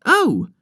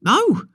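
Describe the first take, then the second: First: High, louder mocking Oh! copying the first boy; imitating falsetto. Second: A much higher, louder falsetto Oh!; shrill falsetto. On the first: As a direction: squeal it back like a copycat. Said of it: "imitating the first". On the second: Acted. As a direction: squeal Oh! like a teasing little boy. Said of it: "in a shrill falsetto".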